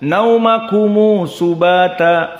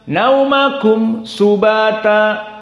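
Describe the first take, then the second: First: A short u vowel is added after the m. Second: The m closes the word with no added vowel. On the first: This is another reading tradition's version. "dua harokat" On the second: This is one reading tradition's version. "Tidak ada panjang"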